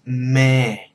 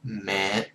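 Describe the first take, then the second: First: The word is said on a neutral, level pitch. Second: The word is said with a heavy, lowered pitch. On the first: "Neutral sound is mẹ" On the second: "that heavy accent of mẹ. You gotta really lower your voice there"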